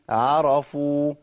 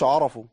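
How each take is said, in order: First: The sounds before the r stay light. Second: The sounds before the r are made heavy. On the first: The speaker calls it right. "جالي حرف مرقق تاني وبعديه راء" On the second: The speaker calls it wrong. "ما اقولش عرفوا، ما تنفعش"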